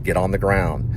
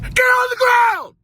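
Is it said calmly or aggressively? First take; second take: calmly; aggressively. First: It is said in a calm, mild way. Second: It is barked in a harsh, commanding way.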